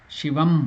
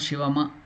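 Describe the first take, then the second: First: The word ends on a bare m consonant. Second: The word ends with a vowel after the m. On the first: The speaker calls it right. "it is half letter again. Halanta" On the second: The speaker calls it wrong. "it is not Shivama"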